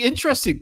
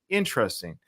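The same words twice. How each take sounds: First: It is said brightly with genuine enthusiasm. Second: It is said slowly and doubtfully after a hum. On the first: The message is found truly interesting and cool. "hey, that's really interesting, cool" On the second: The message is doubted or quietly disapproved of. "it was more like, hmm, interesting"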